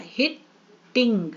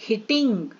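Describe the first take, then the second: First: "हिट-टिंग" slowly in two beats; very slow, separated "हिट", then "टिंग"; split into two syllables. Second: "hitting" as one joined word; "hitting" run together, falling at the end; word said whole. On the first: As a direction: break "hitting" with a clear gap after "हिट". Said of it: "तो यहाँ पे दो हो गया". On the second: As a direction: say "hitting" carefully without a break. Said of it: "क्या बोल रहे हैं?". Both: Shown as a demonstration.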